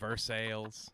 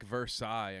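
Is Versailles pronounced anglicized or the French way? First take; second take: anglicized; French. First: The word is pronounced in an anglicized way. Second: The word is pronounced the French way. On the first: "calls them Versailles" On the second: "French words like Versailles"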